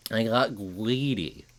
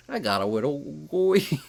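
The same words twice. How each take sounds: First: Slow nerdy voice, put-on; a lightly voiced nerd. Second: Higher put-on nerdy voice; a slightly whiny nerd. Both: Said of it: "I love doing my nerd voice".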